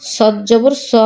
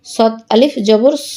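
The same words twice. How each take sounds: First: No stretch on স; short vowel. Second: Long, sustained স; drawn-out vowel. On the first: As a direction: end on a short স. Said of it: "কোথায় দ্রুত পড়ি". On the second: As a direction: hold the final স for one alif count. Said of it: "কোথায় টান দিই". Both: Shown as a demonstration.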